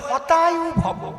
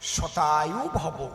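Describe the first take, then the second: First: The first word begins with an h sound. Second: The first word begins with an s sound. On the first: May your life be destroyed. The speaker calls it wrong. "ওনার তো স উচ্চারণ হয় না, উনি কয় হতায়ু ভব" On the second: May you live a hundred years. The speaker calls it right. "এর সংস্কৃত কি?"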